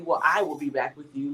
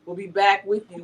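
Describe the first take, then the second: First: "I" singled out, the rest lower; stress on I. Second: Said in the usual way. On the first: Real, not acted. Host correcting herself in the sign-off, stress on "I". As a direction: lean on "I" to correct the "we".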